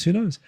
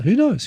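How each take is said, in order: First: Said in the usual way. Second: WHO knows pitched high and louder; a bright, raised shrug of a question; exclaimed who knows. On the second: Real, not acted. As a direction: throw it up high, amused. Rhetorical shrug repeated.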